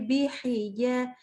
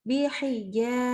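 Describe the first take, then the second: No difference in how they are said.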